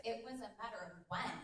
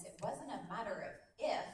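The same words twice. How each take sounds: First: "when" landed firmly to close the phrase; stress on WHEN. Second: "if" set apart at the end of the phrase; stress on IF. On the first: Coach stating her commitment to her business, stress on WHEN. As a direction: make "when" the word that counts. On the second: Coach rejecting doubt about her business, stress on IF. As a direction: lean on "if" as the rejected word. Contrasting if with when in speech. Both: Real, not acted.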